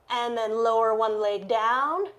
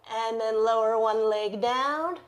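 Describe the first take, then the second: No difference in how they are said.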